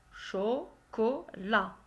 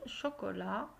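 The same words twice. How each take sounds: First: CHOCOLAT slowly split as cho, co, la; louder, slow "chocolat" with a pause between syllables. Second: Said in the usual way. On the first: Shown as a demonstration. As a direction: break "chocolat" into three drawn-out, separate syllables. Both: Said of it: "la syllabe où tu entends".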